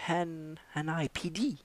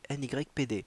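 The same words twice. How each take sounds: First: The letters are spelled out with American sounds. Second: The letters are spelled out with French sounds. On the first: The speaker calls it right. "Il faut le prononcer à l'américaine évidemment" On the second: The speaker calls it wrong. "merci de ne pas le prononcer comme ça"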